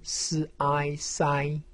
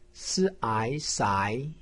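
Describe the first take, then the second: First: The pitch stays high and level. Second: The pitch rises from middle to high. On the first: "一声" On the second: "二声"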